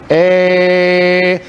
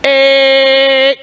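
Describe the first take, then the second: First: The vowel sounds plain and unfocused. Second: The vowel sounds piercing and resonant. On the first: The speaker calls it wrong. "let me just do it normal" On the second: The speaker calls it right. "versus a piercing"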